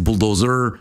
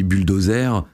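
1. Le mot se prononce avec des sons anglais. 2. Le mot se prononce avec des sons français. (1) "alors qu'en anglais c'est bulldozer" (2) "nous on dit bulldozer"

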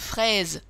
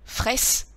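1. La lettre s se lit comme un son z. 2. La lettre s se lit comme un son s. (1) "ils connaissent" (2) "ça ne marche pas"

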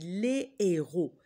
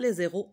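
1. On n'entend aucune liaison en z avant héros. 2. On entend une liaison en z avant héros. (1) "on dit" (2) "On ne dit pas"

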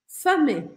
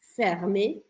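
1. O R é suavizado ou quase não é pronunciado. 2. O R é pronunciado claramente. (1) "certaines consonnes sont adoucies ou omises, comme le R dans fermé" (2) "E na França a gente fala fermé"

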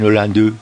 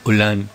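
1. La E final se pronuncia como vocal. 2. La E final es muda. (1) "Ella no dice Hollande" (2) "sino Hollande"

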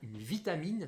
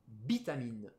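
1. Le mot commence par un son v. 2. Le mot commence par un son b.

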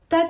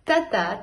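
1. Произнесено быстро, одним потоком. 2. Произнесено медленно и плавно. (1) "И теперь быстро" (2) "Сначала медленно"

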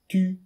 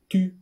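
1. はっきりした't'の音で始まります。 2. はっきりした't'の音で始まります。

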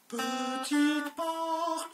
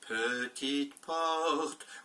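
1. La voix est montée dans les aiguës. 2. La voix est à sa hauteur normale. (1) "À moi avec ma voix aiguë" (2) "À moi avec ma voix normale"

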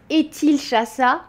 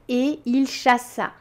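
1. Le t de et se lie à il. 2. Le t de et est muet devant il. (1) "On ne va pas dire" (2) "mais on va dire"

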